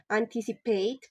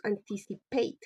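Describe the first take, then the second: First: Said in the usual way. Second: "anticipate" said syllable by syllable; demonstrated word stress. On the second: Shown as a demonstration. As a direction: say "anticipate" deliberately, each syllable distinct. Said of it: "pronounced anticipate".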